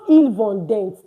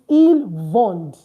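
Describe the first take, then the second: First: The final ent ending is sounded out. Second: The word ends on the d sound. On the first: The speaker calls it wrong. "So it's not il vendent" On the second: The speaker calls it right. "We don't pronounce the E N T"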